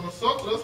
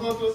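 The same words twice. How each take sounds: First: The s sound is pronounced as a full s. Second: The s sound is weakened to a breathy h.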